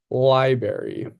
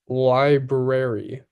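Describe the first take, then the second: First: The word is shortened, with syllables dropped. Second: The word is said fully, every syllable clear. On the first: The speaker calls it wrong. "I don't say the full words, I cheat" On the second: The speaker calls it right. "with both syllables clearly enunciated"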